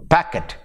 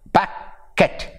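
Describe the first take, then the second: First: Said in the usual way. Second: "packet" split into pack and et, with a gap; syllable by syllable. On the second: Shown as a demonstration. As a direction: break "packet" into two separate beats. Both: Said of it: "two syllables".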